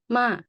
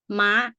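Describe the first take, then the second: First: The syllable is said with a falling tone. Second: The syllable is said with a high tone. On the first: "That is falling tone" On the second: "it goes straight up, high tone"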